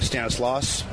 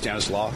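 First: The final s of the name is sounded. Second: The final s of the name is silent. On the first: This is how the speaker habitually says it. The speaker calls it wrong. "I say Stanislaus" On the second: This is what the speaker believes is correct. The speaker calls it right. "but I think it's Stanislaw. ... That's a silent, probably"

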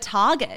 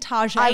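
First: The name gets its ordinary, plain pronunciation. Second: The name gets a fancy, eccentric pronunciation. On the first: "instead of Target" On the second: "people saying Tajay"

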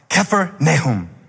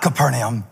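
First: The name is said as Kephar Nahum. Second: The name is said as Capernaum. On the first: The speaker calls it right. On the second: The speaker calls it wrong. "I was saying it wrong. He said, not Capernaum"

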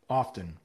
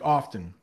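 First: The T is soft, close to a D. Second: The T in the middle is clearly sounded. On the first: The speaker calls it right. "It's a soft T" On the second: The speaker calls it wrong. "I just did it with a T there"

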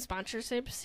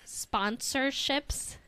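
First: The word is rushed and its sounds run together. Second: The word is said clearly with every syllable distinct. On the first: The speaker calls it wrong. "Did I not say that correctly?" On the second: The speaker calls it right.

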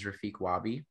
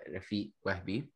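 First: The name is said with an American accent. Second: The name is said with an Egyptian accent.

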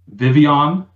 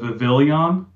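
First: The name is said without an L sound. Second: The name is said with an L sound. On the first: The speaker calls it right. "the way you pronounce it" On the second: The speaker calls it wrong. "instead of"

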